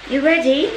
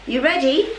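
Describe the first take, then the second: No difference in how they are said.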